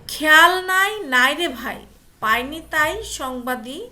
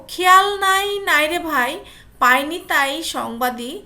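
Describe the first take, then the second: No difference in how they are said.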